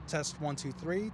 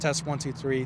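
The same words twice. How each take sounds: First: The recording level is lower and quieter. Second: The recording level is at normal loudness. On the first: This is a backup copy in case the levels were off. "So this is a safety track right now" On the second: This is the main recording. "And this is the regular recording"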